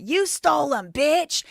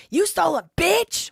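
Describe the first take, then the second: First: Loud, high accusing yell; mock angry yell. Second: Very high, loud accusing shriek; mock shrill yell. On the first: Josh accusing Ben over the Legos, loud mock yell. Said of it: "He did say that". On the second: Josh yelling at Ben over the Legos, loud high mock shriek. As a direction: screech it at Ben. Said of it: "Why did Josh Johnson say to Ben".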